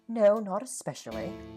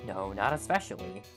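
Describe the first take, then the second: First: It is spoken in a put-on British accent. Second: It is spoken without a put-on British accent.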